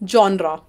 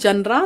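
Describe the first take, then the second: First: It begins with 'jon' and ends in 'ra'. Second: It begins with 'jan' and ends in 'ra'. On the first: The speaker calls it right. "This word is pronounced as जॉनरा।" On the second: The speaker calls it wrong. "इसे जनरे या फिर जनरा नहीं बोला जाता है।"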